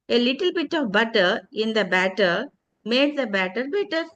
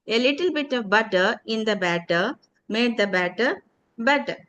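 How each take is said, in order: First: Tongue twister demo. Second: Tongue twister repeat. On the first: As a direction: recite the tongue twister steadily. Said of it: "some tongue twister with the sounds". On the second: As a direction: recite the twister once more in full. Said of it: "Can you try it?". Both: Shown as a demonstration.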